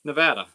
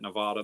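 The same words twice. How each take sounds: First: Corrected Nevada, middle vowel as in "cat"; Nevada with short a. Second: Put-on Nevada the old schoolroom way, Ne-VAH-da; broad "vah" in Nevada. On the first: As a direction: hit a short, loud "vad" in Nevada. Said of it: "it's supposed to be pronounced". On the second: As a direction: middle a of Nevada opened to "ah". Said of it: "They always pronounced it Nevada". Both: Shown as a demonstration.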